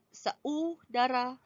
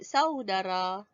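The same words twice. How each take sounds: First: The two vowels are split into separate syllables. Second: The two vowels glide together in one syllable. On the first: The speaker calls it wrong. "tak ada kan orang sebut saudara" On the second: The speaker calls it right. "Orang sebut saudara"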